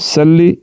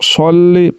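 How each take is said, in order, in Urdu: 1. پہلا 's' ہلکا اور سادہ ہے۔ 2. پہلا 's' بھاری ہے۔ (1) "سلی نہیں پڑھنا" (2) "صاد کو پڑھنا ہے"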